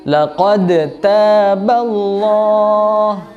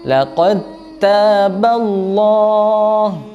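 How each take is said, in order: First: The d is sounded separately with a bounce. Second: The d blends fully into the following t. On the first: The speaker calls it wrong. "Contoh yang salah seperti ini" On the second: The speaker calls it right. "melebur ke huruf ta-nya langsung"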